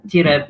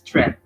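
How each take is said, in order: First: A vowel is inserted between t and r. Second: The t and r are joined without a vowel. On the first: The speaker calls it wrong. "Don't read tireb" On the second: The speaker calls it right. "it's treb"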